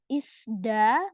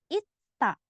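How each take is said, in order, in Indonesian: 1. Bunyi di tengah seperti s diikuti d. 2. Bunyi di tengah seperti satu t saja. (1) "dia bukan dibaca isda, bukan" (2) "Jadinya bacanya ita"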